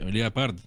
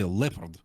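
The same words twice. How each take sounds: First: The O is pronounced as a separate vowel. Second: The O is silent, not pronounced at all. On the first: This is how Russians say it. "Leopard is how we say it in Russian" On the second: This is how English speakers say it. "in American English, ... they say leopard. ... completely ignore the O"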